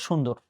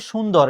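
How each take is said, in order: First: সুন্দর with a closed final vowel, shun-dor; shun-dor for সুন্দর, said as the correction; corrected pronunciation. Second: সুন্দর mispronounced as shun-dawr; shun-DAWR for সুন্দর, open last vowel; common mispronunciation. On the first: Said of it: "উচ্চারণ হচ্ছে সুন্দর". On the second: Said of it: "এটা ভুল, উচ্চারণ হচ্ছে সুন্দর". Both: Shown as a demonstration.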